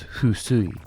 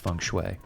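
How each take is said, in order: First: It is said with Japanese sounds, like fusui. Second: It is said with English sounds, like feng shui. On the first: "In Japanese, it's husui" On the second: "but I'm going with feng shui"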